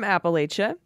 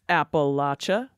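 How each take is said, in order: First: It is said with an outsider's pronunciation. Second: It is said with the local regional pronunciation.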